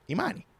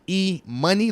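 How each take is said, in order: First: It sounds like the single name ih-MAH-nee. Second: It sounds like the letter E plus money. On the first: It is the given name Imani. "Imani like Imani" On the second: The name refers to money. "E Money like moolah, baby"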